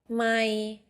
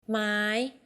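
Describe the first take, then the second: First: The syllable is said on a level middle tone. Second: The syllable is said on a high tone. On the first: It means mile. "middle ไม่ mile" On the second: It means wood. "high ไม้ wood"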